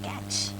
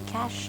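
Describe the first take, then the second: First: The word ends with a 'ch' sound. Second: The word ends with a 'sh' sound. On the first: The speaker calls it wrong. "not catch" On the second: The speaker calls it right. "it's going to be cache"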